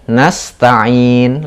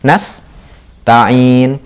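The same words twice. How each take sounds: First: The word is said smoothly with no break. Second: A short break splits the word after 's'. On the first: The speaker calls it right. "langsung ya, tanpa itu karena ini satu kata" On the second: The speaker calls it wrong. "yang seakan-akan jedanya bunyinya gini"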